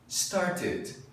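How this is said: The middle T is a crisp, clear stop. "No inglês britânico, o pessoal fala o D e o T bem bonitinho"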